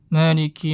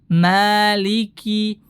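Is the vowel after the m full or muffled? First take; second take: muffled; full. First: The first vowel is muffled with lips closing. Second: The first vowel is fully open and clear. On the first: The speaker calls it wrong. "dia menutup mulutnya" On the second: The speaker calls it right. "Itu disempurnakan"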